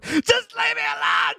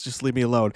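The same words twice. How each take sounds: First: Much higher, slow, shouted tantrum; sulky teen shouting at his mom; whiny teen shout. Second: Said in the usual way. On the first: Retold or imitated. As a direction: yell it like a sulking teenager. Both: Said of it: "And he goes".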